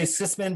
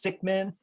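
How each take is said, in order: First: The name is said with an s sound inside. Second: The name is said with a k sound inside. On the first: The speaker calls it wrong. "Some people say Sisman" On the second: The speaker calls it right. "you have to properly pronounce it. It's Sickman"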